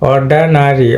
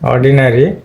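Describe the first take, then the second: First: The second vowel is a weak 'uh' sound. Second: The second vowel is a clear 'i' sound. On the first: "এখানে কিন্তু শোয়া sound আ আছে" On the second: "আমরা অর্ডিনারি বলি"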